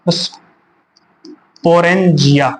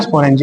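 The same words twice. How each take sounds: First: Drawn-out term. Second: Said in the usual way. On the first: Shown as a demonstration. Teacher drilling sporangia very slowly for the class. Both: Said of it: "क्या बोलते हैं?".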